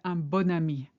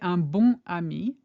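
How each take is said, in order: First: Bon links into ami with a liaison sound. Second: Bon and ami are said apart, without liaison. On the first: The speaker calls it right. "we say un bon ami" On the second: The speaker calls it wrong. "We don't say un bon ami"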